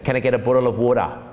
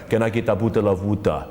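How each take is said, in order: First: It is spoken in an Australian accent. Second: It is spoken in an African accent. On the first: "You go to Australia" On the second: "and Africa"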